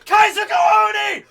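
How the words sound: It is yelled loudly at full voice. The speaker calls it right. "You gotta yell it"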